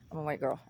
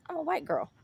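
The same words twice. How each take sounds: First: Said in the usual way. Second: High emphatic. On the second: Shown as a demonstration.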